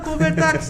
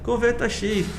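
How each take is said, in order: First: The X is blended into one word. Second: The X is said as a separate letter. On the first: The speaker calls it wrong. "Convertax não" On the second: The speaker calls it right.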